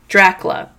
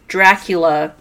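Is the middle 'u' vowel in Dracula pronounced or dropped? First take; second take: dropped; pronounced. First: The vowel after the 'c' is left out. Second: The vowel after the 'c' is clearly pronounced. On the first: The speaker calls it wrong. "I was saying it with totally without the U" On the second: The speaker calls it right. "I'm enunciating here"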